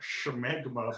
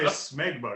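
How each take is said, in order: First: The word begins with a sh sound. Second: The word begins with a plain s sound. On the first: "a Defoe-esque pronunciation" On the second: "I would just say smegma because I don't think there's an H"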